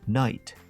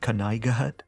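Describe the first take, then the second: First: The silent letters stay silent. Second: Every silent letter is sounded out. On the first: "he means" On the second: "when you hear Gnomi say things like"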